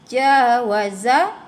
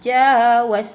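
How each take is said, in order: First: The word ends on a short final vowel. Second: The word stops on its final consonant. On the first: The reading continues without stopping. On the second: The reader stops on this word.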